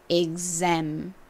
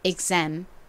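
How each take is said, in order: First: The word is said slowly and drawn out. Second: The word is said at normal speed.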